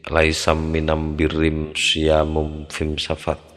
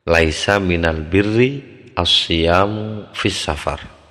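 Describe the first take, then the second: First: The article is pronounced with an M sound. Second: The article is pronounced with an L sound.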